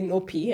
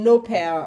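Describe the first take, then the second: First: The name ends with a 'pee' sound. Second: The name ends with a 'pair' sound. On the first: This is how the name used to be said. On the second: This is the current way of saying the name.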